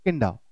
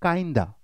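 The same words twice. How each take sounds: First: Kinda with a short i, "kin-da"; short i in kinda, as the common mistake; wrong "kinda". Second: Kinda with a long i, "kine-da"; correct "kinda". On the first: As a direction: mispronounce kinda to rhyme with Linda. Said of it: "pronunciation बहुत लोग गलत कर देते". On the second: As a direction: say kinda starting like "kind". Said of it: "आप सही करेंगे". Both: Shown as a demonstration.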